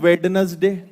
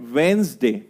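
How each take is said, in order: First: The first 'd' is sounded, giving three syllables. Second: The first 'd' is silent, giving two syllables. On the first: The speaker calls it wrong. "तो आप इसको बोलते हो वेडनसडे" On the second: The speaker calls it right. "मैं पहले बोलकर बताता हूं"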